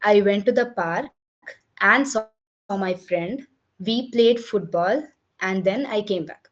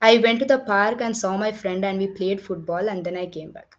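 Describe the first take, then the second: First: It is read with short pauses between phrases. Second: It is read quickly without pauses between phrases. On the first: The listener understands it very clearly. The speaker calls it right. "நீங்க வந்து pass பண்ணி படிச்சீங்கன்னா இப்படி இருக்கும்" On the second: The listener cannot understand it easily. The speaker calls it wrong. "இது நான் rushing ஓட நான் படிச்சு பார்க்கிறேன்"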